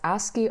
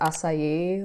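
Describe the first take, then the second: First: It is said as one word, ask-ee. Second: It is said as one word, like acai. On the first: "I hear some people pronouncing it as ASCII art" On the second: "kind of want to pronounce it as acai, like, like acai bowl"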